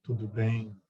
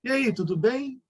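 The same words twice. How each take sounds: First: "Tudo bem" dropped low and soft, settling at the end; low, quiet, resolved "Tudo bem"; low answering tune. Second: "tudo bem" lifted high as a question; raised, rising "tudo bem?"; high question tune. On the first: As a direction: answer "Tudo bem" with a falling, grave close. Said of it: "E a pessoa responde". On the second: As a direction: ask "E aí, tudo bem" with the pitch climbing. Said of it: "agudo como a gente faz a pergunta". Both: Shown as a demonstration.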